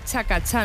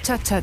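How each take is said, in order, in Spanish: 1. La sílaba del medio empieza con sonido 'k'. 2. La sílaba del medio empieza con sonido 'ch'. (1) "es chacachá" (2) "no chachachá"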